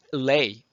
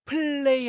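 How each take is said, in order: First: 플레이 as a breath P, then a louder "lay"; 플레이 split p-lay, firmly; correct split play. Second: 플레이 pitched higher with a stretched L, run together; exaggerated mistaken 플레이; wrong drawn-out L. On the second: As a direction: glide high through 플레이 as one word. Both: Shown as a demonstration. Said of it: "하시면 안 된다는 거죠".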